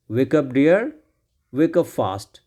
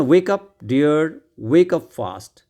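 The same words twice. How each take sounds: First: Said in the usual way. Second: Louder, drawn-out reading; very slow read-aloud. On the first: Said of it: "repeats the line at normal pace". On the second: Shown as a demonstration. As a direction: stretch every word for the class. Reading the story lines aloud.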